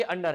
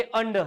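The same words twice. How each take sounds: First: "अंडर" with the final R sounded; wrong pronunciation. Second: "अंडर" with the final R dropped; correct pronunciation. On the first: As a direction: say "अंडर" as un-dar, full R. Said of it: "ना तो ये अंडर है". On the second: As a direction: say "अंडर" as un-duh. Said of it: "आर का तो हम आधा ही उच्चारण". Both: Shown as a demonstration.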